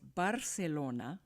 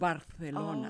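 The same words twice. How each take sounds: First: The c is said as an s sound. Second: The c is not said as an s sound. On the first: "It sounds like an S" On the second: "They don't pronounce that that C or the S sound"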